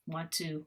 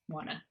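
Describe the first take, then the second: First: Both words are said fully and separately. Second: The words blend into one reduced word. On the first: "want to becomes a lot, always becomes wanna" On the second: "always becomes wanna"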